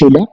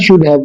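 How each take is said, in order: First: The words blend into one reduced word. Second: Both words are said fully and separately.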